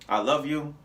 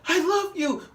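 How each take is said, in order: First: It is said flatly, as a plain statement. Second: It is said expressively, with real feeling. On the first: The words are only stated, not truly felt. "Like you said "I love you,"" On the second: The words express genuine feeling. "you wanted it to be like an expression"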